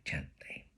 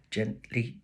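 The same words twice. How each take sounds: First: Fading to a whisper. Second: Said in the usual way. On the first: A narrator's reading. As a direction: breathe the word gently, unvoiced. Narration fading out.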